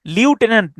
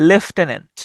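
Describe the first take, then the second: First: লিউটেন্যান্ট opening on "lyu"; wrong pronunciation. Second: লেফটেন্যান্ট opening on "lef"; correct pronunciation. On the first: Teacher warns against this form, saying "lyu-tenant". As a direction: say লিউটেন্যান্ট with "lyu" in place of "lef". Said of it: "লিউটেন্যান্ট না". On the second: Teacher gives the right form, "lef-tenant". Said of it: "এটার উচ্চারণটা হচ্ছে". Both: Shown as a demonstration.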